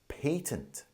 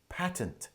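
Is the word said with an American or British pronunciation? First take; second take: British; American. First: The word is said with a British pronunciation. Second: The word is said with an American pronunciation. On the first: "In the U K, we pronounce it as patent" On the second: "North American English is pronounced as patent"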